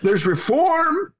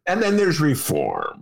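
First: Reform drawn out high and slow, rising; sarcastic lilt on "reform"; stress on reform. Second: "then" leaned on, "reform" falling; knowing stress on "then". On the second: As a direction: hit "then", let "reform" drop. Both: Shown as a demonstration.

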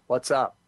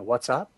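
First: "What's up?" said flat, no rise at the end; flat demo. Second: "What's up?" with pitch rising on "up"; rising question. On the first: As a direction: show the question with no lift in pitch. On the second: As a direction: lift the voice at the end like a real question. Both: Shown as a demonstration. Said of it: "if you can't have a rise and a fall".

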